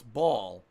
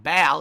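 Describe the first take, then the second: First: "ball" as "bawl", rounded vowel; supposedly correct "ball". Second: "ball" as "bal", vowel of "cat"; rejected "ball" pronunciation. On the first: Streamer mock-correcting himself for viewers, rounded "bawl". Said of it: "It's ball". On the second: Streamer mock-correcting himself for viewers, loud "bal". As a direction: say "ball" loudly with a front "a". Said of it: "It's not ball". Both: Shown as a demonstration.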